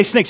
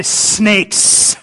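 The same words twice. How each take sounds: First: Said in the usual way. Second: "snakes" with a long drawn-out S; drag out the S. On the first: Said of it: "You don't say snakes". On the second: Shown as a demonstration. Preacher showing how to call someone a snake, S in "snakes" dragged out. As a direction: stretch the S sounds in "snakes". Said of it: "you always drag out the S".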